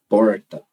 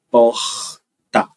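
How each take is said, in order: First: The R is curled back, retroflex. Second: The R is a breathy, aspirated sound. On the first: "Esse é o retroflexo" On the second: "como eu pronuncio, é um aspirado"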